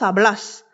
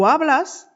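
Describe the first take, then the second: First: The stress is on the last syllable. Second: The stress is on the first syllable. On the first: This is the form used with vos. "en accentuant le dernier A" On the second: This is the form used with tú. "d'accentuer le premier"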